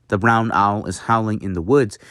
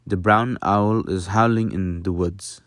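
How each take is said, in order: First: Said in the usual way. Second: Mild Dutch accent; lightly Dutch-accented English, vowels barely changed. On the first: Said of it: "if I were to say". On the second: Shown as a demonstration. Teacher demonstrating that little changes, mild Dutch accent. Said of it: "with a Dutch accent".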